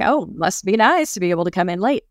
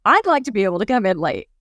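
First: Mildly sarcastic, stretching NICE; mock envy, leaning on "nice"; resentful envy. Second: Said in the usual way. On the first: Envying a coworker who comes in late, resentful. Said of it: "that feeling of resentment". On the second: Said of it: "That's actually what we're saying".

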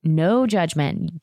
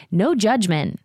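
First: "No judgment." stretched out very slowly, each word lingering; slow drawn-out no judgment. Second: "No judgment." said a bit higher, with a firm push on "No"; emphatic no judgment. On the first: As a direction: draw it out with knowing emphasis. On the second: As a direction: state it briskly like a quick wink. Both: Shown as a demonstration. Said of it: "Get it, Caroline Forbes".

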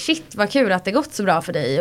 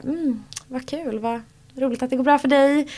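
First: Genuinely glad. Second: Mock half-hearted congratulations; lukewarm praise. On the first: Retold or imitated. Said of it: "vissa är så här". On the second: Imitating lukewarm townspeople met in the street, dryly unimpressed. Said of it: "vissa är lite så här".

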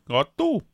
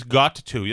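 First: "Got to" in a New England accent, "to" lifted high and drawn out; hammed-up New England "Got to"; regional New England accent. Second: Said in the usual way. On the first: Shown as a demonstration. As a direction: show off the local New England catchphrase "Got to". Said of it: "That's a big one". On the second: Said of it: "That means got to".

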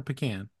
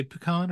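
First: Pecan with a short "a" as in "can"; pecan as pih-KAN. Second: Pecan with a broad "ah" in the stressed second syllable; pecan as pih-KAHN. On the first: Co-host offering the other pronunciation, pecan as pih-KAN. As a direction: say pecan to rhyme with "man". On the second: Co-host quizzing Casey on pronunciation, pecan as pih-KAHN. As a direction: say pecan to rhyme with "on". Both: Shown as a demonstration. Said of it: "how do you say pecan".

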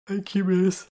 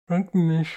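First: Higher-pitched thanks through a yawn; cute yawn. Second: Higher, louder mouthful gurgle; gurgled. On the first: Kitty thanks her miss for tea, yawning cutely. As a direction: say it while yawning sweetly. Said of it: "came another cute yawn". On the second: Kitty thanks her miss mid-sip, gurgling. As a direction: gurgle it through a mouthful of tea. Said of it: "she gurgled". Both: A narrator's reading.

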